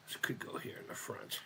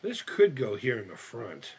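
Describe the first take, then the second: First: Whispered repeat of the same line. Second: Said in the usual way. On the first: Shown as a demonstration. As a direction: breathe it out with no voice. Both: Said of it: "repeat in a whisper".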